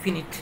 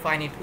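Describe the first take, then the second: First: The first syllable has a short 'i' sound. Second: The first syllable has a long 'eye' sound. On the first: "অনেকে বলে ফিনিট" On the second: "আমরা ফাইনিট বলি British অ্যাকসেন্টে"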